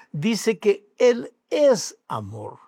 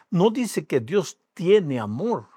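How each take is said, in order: First: Slow and higher, "es" drawn out emphatically; stress on ES. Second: "tiene" picked out as the word being denied; slow, deliberate weight on "tiene"; stress on TIENE. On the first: Preacher correcting what the verse says, emphatic stress on "es". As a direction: hammer "es" as the true word, unhurried. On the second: Preacher correcting a misreading of the verse, stress on "tiene". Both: Real, not acted.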